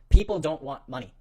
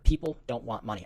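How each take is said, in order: First: It is said noticeably louder. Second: It is said at normal volume.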